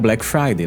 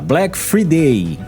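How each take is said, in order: First: Friday starts with a 'fry' sound. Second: Friday starts with a 'free' sound. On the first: The speaker calls it right. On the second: The speaker calls it wrong. "Leva do day do dia, só acrescenta o free"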